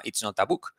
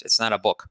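First: "It's not a book" with each word separate and "book" said buk; "It's not a book" with a Spanish accent, each word apart; Spanish-accented English. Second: "It's not a book" linked and native-like, "not a" flowing together; "It's not a book" run together like a native; native pronunciation. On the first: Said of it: "lo más probable es que te diga". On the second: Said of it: "Así lo dice un nativo". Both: Shown as a demonstration.

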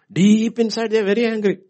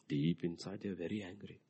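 First: Loud, high preaching shout; preacher shouting about anger. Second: Quiet. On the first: Acted. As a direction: hammer it home. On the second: Shown as a demonstration.

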